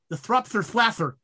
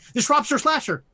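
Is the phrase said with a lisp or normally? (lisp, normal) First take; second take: lisp; normal. First: The s and sh sounds become th sounds. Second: The s and sh sounds are clear.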